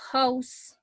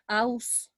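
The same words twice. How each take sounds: First: The word starts with an h sound. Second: The word starts without an h sound. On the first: The speaker calls it right. "it's house, this H has a consonant sound" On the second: The speaker calls it wrong. "it's not house"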